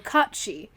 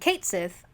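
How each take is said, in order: First: The name ends with a 'shee' sound. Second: The name ends with a 'sith' sound. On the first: The speaker calls it right. "is actually how you say this" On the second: The speaker calls it wrong. "I was thinking Kate Sith"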